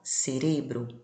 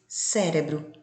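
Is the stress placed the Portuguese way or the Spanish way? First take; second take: Spanish; Portuguese. First: The stress falls where Spanish places it. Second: The stress falls where Portuguese places it. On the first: "na língua espanhola" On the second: "No português"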